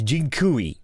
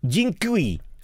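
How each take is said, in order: First: The word is said in a relaxed, easy way. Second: The word is said in a tense, exaggerated way. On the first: The speaker calls it right. "It's more relaxed" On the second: The speaker calls it wrong. "I pronounce this hilariously"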